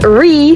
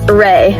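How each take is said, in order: First: One syllable ending in an ee sound. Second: One syllable ending in an ay sound. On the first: The speaker calls it wrong. "Then I pronounced it as Ree, like B but Ree" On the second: The speaker calls it right. "now I know it's pronounced as Ray, like Reagan"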